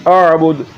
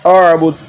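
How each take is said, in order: Both takes have the same delivery.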